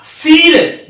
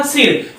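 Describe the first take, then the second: First: सिर pressed with weight and drawn out slowly; stressed wrong take. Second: सिर said softly, slipping over it without weight; light unstressed demo. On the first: Teacher shows the wrong, stressed way: heavy, slow सिर. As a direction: lean hard on सिर, as if it had a long ई. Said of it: "जोर देके बोलता". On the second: Teacher shows children the short i: soft, light सिर. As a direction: let सिर slip out lightly and quietly. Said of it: "कोई जोर ही नहीं दिया". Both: Shown as a demonstration.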